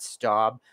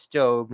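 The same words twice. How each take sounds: First: "staub" said with an ow sound, like "stowb"; "staub" rhyming with "daub" with an ow vowel; wrong pronunciation. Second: "stove" said like the English word stove, rhyming with grove; "stove" with a long o, like cooking stove; correct pronunciation. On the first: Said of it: "not staub". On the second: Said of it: "it's pronounced stove". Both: Shown as a demonstration.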